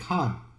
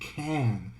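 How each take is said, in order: First: It is said with a British vowel. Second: It is said with an American vowel. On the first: "In England, you're most likely to say can" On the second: "in America, you're probably going to say can"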